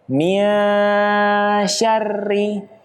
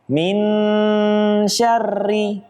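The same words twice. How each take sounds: First: The n is hidden and blurred into sh. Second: The n is pronounced fully and clearly. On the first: The speaker calls it right. "Harusnya menggantung" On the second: The speaker calls it wrong. "kesalahan yang terjadi adalah tidak dengan membaca samar. Nunnya dibaca jelas"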